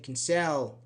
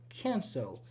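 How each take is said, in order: First: The stress is on the second syllable. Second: The stress is on the first syllable. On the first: The speaker calls it wrong. "we don't say cancel" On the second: The speaker calls it right. "the vowel here is unstressed"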